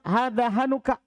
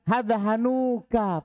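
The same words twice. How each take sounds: First: The vowel after the n is short. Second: The vowel after the n is drawn out long. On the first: The speaker calls it right. "Lebih fasih antum bilang begitu" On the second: The speaker calls it wrong. "Panjang sekali"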